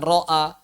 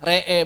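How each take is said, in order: First: The vowels sound like a. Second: The vowels sound like e. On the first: "bukan ro'a" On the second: "re'e bukan ro'a"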